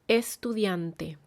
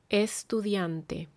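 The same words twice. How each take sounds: The two takes are said the same way.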